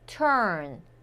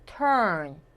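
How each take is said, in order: The two takes are said the same way.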